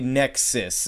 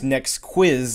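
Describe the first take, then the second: First: The name sounds like one word, nexus. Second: The name sounds like two words, next quiz. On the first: The speaker calls it right. "it's actually Nexus" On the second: The speaker calls it wrong. "it is not pronounced Next Quiz like I thought that it was"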